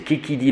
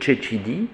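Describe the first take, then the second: First: The consonants are hard k sounds. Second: The consonants are soft ch sounds. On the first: This is the reconstructed classical pronunciation. The speaker calls it wrong. "en latin reconstitué c'est « Kikidi le monsieur »" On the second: This is the liturgical pronunciation. The speaker calls it right. "donc c'est au lieu de « Chechidi »"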